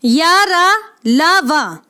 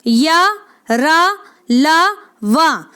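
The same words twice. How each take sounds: First: या, रा, ला, वा called out loud and distinct; या, रा, ला, वा spoken loudly as clean syllables; clear sound demo. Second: या, रा, ला, वा drawn out very slowly, each syllable held; teacher slowly sounding out या, रा, ला, वा; slow syllable drill. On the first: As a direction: call out या, रा, ला, वा clearly to the class. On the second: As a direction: stretch each of या, रा, ला, वा slowly so students can copy. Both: Shown as a demonstration. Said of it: "ध्यान दें।".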